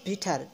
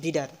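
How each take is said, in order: First: The middle consonant is a clear t sound. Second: The middle consonant is a soft d sound. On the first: "বিটার American style" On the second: "বিডার হচ্ছে Canadian style"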